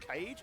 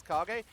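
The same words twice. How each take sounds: First: Cage as one syllable, like a birdcage; suggested pronunciation. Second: Kage said as "KAR-gay"; own pronunciation. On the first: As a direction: say Cage to rhyme with page. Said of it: "it's probably pronounced Cage". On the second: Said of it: "find it weird how I pronounce". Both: Shown as a demonstration.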